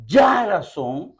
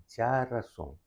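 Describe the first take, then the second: First: Ya razón with a loud, drawn-out YA; stress on first syllable. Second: Ya razón with no syllable standing out; even stress. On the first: Retold or imitated. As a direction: blast the opening YA of ya razón, stretching it. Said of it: "que pone acentos que arriba". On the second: Shown as a demonstration. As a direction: say ya razón softly, every syllable equally weighted. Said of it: "con ningún de sílaba aquí está más alto".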